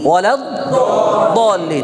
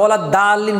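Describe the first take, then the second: First: The vowel after d sounds like a dark 'o'. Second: The vowel after d sounds like a clear 'a'. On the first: The speaker calls it right. "আমরা কি বলি?" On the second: The speaker calls it wrong. "আমরা ওয়ালাদ দাল্লিন বলি না"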